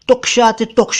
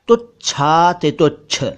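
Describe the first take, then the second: First: The clusters are pronounced with a 'ksh' sound. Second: The clusters are pronounced with a 'chh' sound. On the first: The speaker calls it wrong. "नहीं" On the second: The speaker calls it right. "बल्कि"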